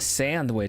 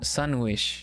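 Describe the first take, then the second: First: The first syllable sounds like 'sand'. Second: The first syllable sounds like 'sun'. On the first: "You mean a sandwich?" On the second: "that sounds like a sun wish"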